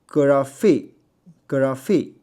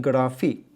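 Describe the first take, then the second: First: Graphy 慢读，不发弹音; graphy without trill. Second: Graphy 的 r 发弹音; graphy with trill. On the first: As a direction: say graphy slowly, plain r. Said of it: "所以你可以发". (慢慢读 graphy，不卷舌) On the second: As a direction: tap the r in graphy. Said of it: "或者你发弹音". (用弹音读 graphy) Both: Shown as a demonstration.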